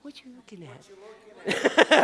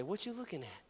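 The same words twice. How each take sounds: First: Drawn-out playful prompt; louder, slower repeat. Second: Softer prompt for the crowd; quiet demo line. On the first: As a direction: urge the crowd to say it. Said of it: "y'all are, like, really quiet". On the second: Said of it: "look at the person next to you and say". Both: Shown as a demonstration.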